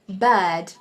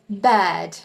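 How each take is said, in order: First: It is said in a British accent. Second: It is said in a British accent.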